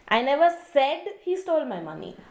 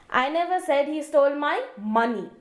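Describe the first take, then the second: First: The stress is on the word said. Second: The stress is on the word money.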